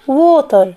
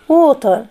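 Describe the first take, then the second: No difference in how they are said.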